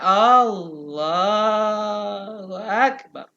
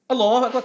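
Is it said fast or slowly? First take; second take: slowly; fast. First: It is said very slowly. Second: It is said hurriedly and fast.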